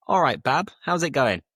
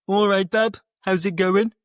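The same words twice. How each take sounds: First: Said in the usual way. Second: High, loud Brummie greeting; Brummie accent. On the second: Shown as a demonstration. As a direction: greet a pal in a thick Birmingham accent. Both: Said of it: "That would be how they'd actually speak".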